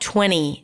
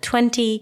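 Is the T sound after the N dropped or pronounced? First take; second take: dropped; pronounced. First: The T after the N is dropped. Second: The T after the N is pronounced. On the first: "people tend to drop it like 20" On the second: "instead of 20"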